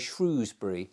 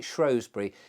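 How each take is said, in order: First: The first syllable sounds like shrew. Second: The first syllable rhymes with show. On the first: This is how younger people say it. "as if it's named after a shrew" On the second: This is how old local families say it. "they always call it Shrewsbury"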